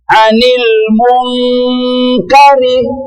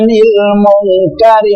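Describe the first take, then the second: First: The n before k has a long nasal hum. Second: The n before k has little nasal hum. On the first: The speaker calls it right. "dengung ya" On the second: The speaker calls it wrong. "sah, kurang dengung"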